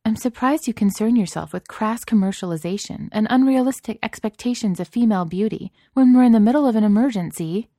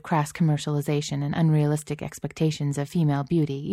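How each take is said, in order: First: High, louder, reproving voice; pointed, indignant reproach; some reproof. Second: Said in the usual way. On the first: A narrator's reading. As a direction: scold with lofty disapproval, swelling toward the end. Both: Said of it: "Celia said with some reproof".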